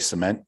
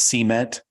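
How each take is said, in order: First: The stress is on the second syllable. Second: The stress is on the first syllable. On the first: This is the speaker's own usual way. The speaker calls it right. "we we say cement" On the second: This is how a Southern-accented speaker says it. The speaker calls it wrong. "She says cement"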